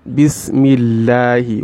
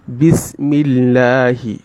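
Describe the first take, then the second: First: The L sound is thin and light. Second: The same.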